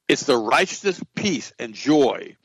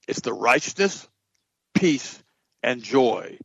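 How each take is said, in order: First: The phrase is spoken at a normal pace. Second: The phrase is spoken at a slow pace.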